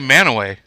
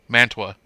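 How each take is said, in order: First: The name is said as 'Man-a-way'. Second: The name is said as 'Man-tu-a'. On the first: This is how locals say it. "I say Manaway. That's how most of us say it" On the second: This is how outsiders say it. "a lot of outsiders call it Mantua"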